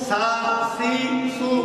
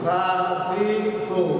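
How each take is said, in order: First: It starts with a hard s sound. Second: It starts with a soft th sound. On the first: The speaker calls it wrong. "উচ্চারণ করলাম সিনে, এই পড়াটাই অশুদ্ধ পড়া" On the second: The speaker calls it right. "সুন্দর করে উচ্চারণ করি, নরম সুরে বলেন"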